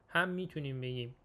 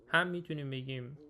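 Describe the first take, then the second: No difference in how they are said.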